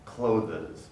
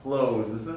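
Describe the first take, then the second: First: Clothes with an extra schwa, clo-thes; clothes pronounced as spelled, klo-thuz; wrong spelling-based clothes. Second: Clothes with the th fully sounded; clothes, deliberately enunciated; careful two-syllable clothes. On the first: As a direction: say clothes as two syllables with the E sounded. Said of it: "no speakers of English that say clothes". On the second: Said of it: "very carefully might say clothes". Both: Shown as a demonstration.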